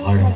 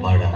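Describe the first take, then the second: Both takes have the same delivery.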